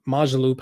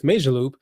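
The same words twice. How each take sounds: First: Majorloop with MAH in the first syllable, "MAH-zhuh-loop"; alternative pronunciation. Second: Majorloop with MAY in the first syllable, "MAY-zher-loop"; first pronunciation variant. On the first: YouTuber offering viewers another way to say the name, Majorloop pronounced MAH-zhuh-loop. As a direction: say Majorloop with an open "ah" up front. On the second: YouTuber offering viewers one way to say the name, Majorloop pronounced MAY-zher-loop. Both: Shown as a demonstration. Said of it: "however you wanna pronounce it".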